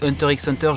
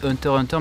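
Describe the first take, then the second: First: The title is pronounced in a French-sounding way. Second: The title is pronounced in an English-sounding way. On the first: This is how the speaker personally says it. The speaker calls it wrong. "moi je dis Hunter x Hunter" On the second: This is the accepted way to say it. The speaker calls it right. "je sais ça se dit Hunter x Hunter"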